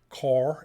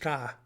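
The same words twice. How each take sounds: First: It is said without a Maine accent. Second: It is said in a Maine accent.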